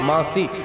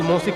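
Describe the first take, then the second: First: The first vowel sounds like 'aa'. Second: The first vowel sounds like 'au'. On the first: This is the pure form, meaning like a mother. The speaker calls it right. "लेकिन शुद्ध जो शब्द है मासी" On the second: This is the form people use nowadays. The speaker calls it wrong. "आजकल मौसी कहते हैं"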